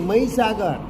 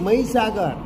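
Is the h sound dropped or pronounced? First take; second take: dropped; dropped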